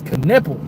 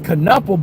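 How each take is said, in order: First: The first vowel sounds like the vowel in 'kip'. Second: The first vowel sounds like the vowel in 'cup'. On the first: The speaker calls it right. "but it's Knipple" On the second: The speaker calls it wrong. "I thought it was Knuppel"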